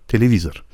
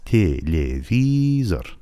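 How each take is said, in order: First: Said in the usual way. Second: "تلویزور" stretched as tye-lye-vii-zor; slow syllable-by-syllable pronunciation. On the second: Shown as a demonstration. Teacher sounding out the word for learners, slow syllables. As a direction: draw out each syllable of "تلویزور" evenly. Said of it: "تلفظش به صورت او هست".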